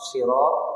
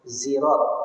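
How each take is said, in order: First: The word begins with an emphatic, heavy s. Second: The word begins with a z sound. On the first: "dengan shad" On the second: "dengan zaid"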